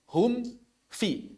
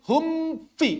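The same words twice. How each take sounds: First: The m is released before the f starts. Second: The m runs straight into the f. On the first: The speaker calls it right. "Jadi terlepas dulu, ya. Baru kemudian fa" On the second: The speaker calls it wrong. "Enggak langsung begini. ... Enggak begitu"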